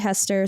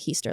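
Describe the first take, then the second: First: The first vowel is a short 'e' sound. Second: The first vowel is a long 'ee' sound. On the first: "Some people say Hester" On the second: "like Easter with an H"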